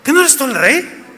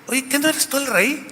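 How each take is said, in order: First: High, mocking, pointed wife's voice; Jezabel's taunt again. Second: High, soft, lightly voiced scheming wife; Jezabel's taunt. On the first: Shown as a demonstration. Preacher replays the wife's goading, high and mocking. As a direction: lean into the taunt, high and needling. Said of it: "A ver". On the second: Wife goads the king about his power, in a sly high voice. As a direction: needle him with a sly question.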